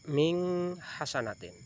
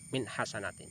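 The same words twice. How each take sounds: First: The n sound in min is blurred. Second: The n sound in min is clear. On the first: The speaker calls it wrong. "tidak boleh membaca" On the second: The speaker calls it right.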